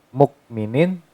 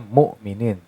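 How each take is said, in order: First: The middle consonant is a k sound. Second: The middle consonant is a light glottal stop. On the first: "Kalau pakai kaf mukminin" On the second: "Kalau pakai hamzah jadinya mu'minin"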